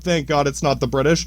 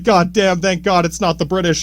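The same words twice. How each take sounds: First: Said in the usual way. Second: Relieved quote. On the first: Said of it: "Yeah, straight up". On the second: Retold or imitated. Colonists glad they are not ruled by the British, mildly acted relief. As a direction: voice the colonists thanking God, lightly acted. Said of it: "I don't doubt they're like".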